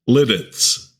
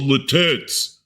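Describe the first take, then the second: First: The first T ends the first syllable. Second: The first T starts the second syllable. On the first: The speaker calls it right. "You split that first T and connect it to the first syllable" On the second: The speaker calls it wrong. "people who deliberately mispronounce Lititz"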